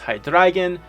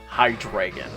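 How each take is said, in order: First: The middle syllable sounds like German 'drei'. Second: The middle syllable does not sound like 'drei'. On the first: The speaker calls it right. "it is technically pronounced Hydreigon. It is Ein, Zwei, Drei" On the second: The speaker calls it wrong. "I do know that I pronounce it quote-unquote wrong"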